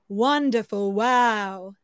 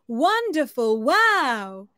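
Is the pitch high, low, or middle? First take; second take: low; high. First: It is said at a low pitch. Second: It is said at a high pitch.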